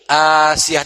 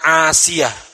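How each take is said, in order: First: The name begins with a plain, long vowel. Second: The name begins with a throaty, squeezed consonant. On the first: The speaker calls it right. "pakai hamzah. Asiyah dan harus panjang" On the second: The speaker calls it wrong. "bukan Asiyah, bukan pakai ain"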